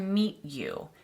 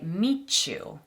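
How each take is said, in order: First: The t and y sounds stay separate. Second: The t and y blend into ch. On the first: The speaker calls it wrong. "a native English speaker wouldn't say" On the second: The speaker calls it right. "We'd say"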